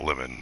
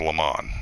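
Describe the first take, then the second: First: The word has the plain English pronunciation. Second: The word has a French-like pronunciation. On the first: It is the ordinary fruit word. The speaker calls it wrong. "not lemon" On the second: It is the person's name. The speaker calls it right. "It's lemon, ... it's more or less French, I guess"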